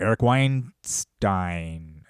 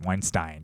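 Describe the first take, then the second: First: Weinstein said very slowly, WINE-stine; careful pronunciation. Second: Weinstein repeated softly, WINE-stine; quiet repeat. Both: Shown as a demonstration. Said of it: "I think that's how you say it".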